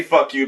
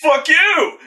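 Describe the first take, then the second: First: Said in the usual way. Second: Much higher, louder shouted retort; hammed-up furious shout; mock yell. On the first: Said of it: "he doesn't say". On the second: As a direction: throw it like a monster's snarl of defiance. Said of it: "he's got that reaction".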